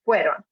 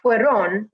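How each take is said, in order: First: The stress is on the first syllable. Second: The stress is on the second syllable. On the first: The speaker calls it right. "the first half that should be the strong part" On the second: The speaker calls it wrong. "not fueron with the, the second part being the strong part"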